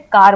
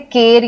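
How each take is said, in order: First: The vowel sounds like a long ah. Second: The vowel sounds like a short e. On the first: The speaker calls it right. "हम इसे कार बोलते हैं" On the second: The speaker calls it wrong. "हम इसे केर या कैर नहीं बोलते"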